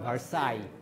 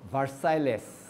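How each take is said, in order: First: The final letters are silent. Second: The final letters are pronounced as spelled. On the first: The speaker calls it right. "কিন্তু আসলে এটাকে উচ্চারণ করে" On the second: The speaker calls it wrong. "যদি তুমি এই যে আর্টিকুলেট করো তাহলে ওটা হবে"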